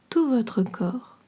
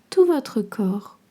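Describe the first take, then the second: No difference in how they are said.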